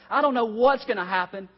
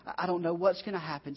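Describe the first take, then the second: First: Louder and higher, anguished cry of crisis. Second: Said in the usual way. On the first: Retold or imitated. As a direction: call it out like a man at the end of his rope. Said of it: "We go from this crisis". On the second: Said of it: "he's saying".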